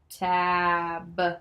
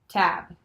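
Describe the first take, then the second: First: The word is said slowly, sounds stretched. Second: The word is said fast, sounds joined.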